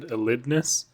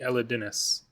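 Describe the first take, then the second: First: No vowel is heard between d and n. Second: An extra i vowel follows the d. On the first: The speaker calls it wrong. "A lot of people said Elidnus" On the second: The speaker calls it right. "there is another I after the D"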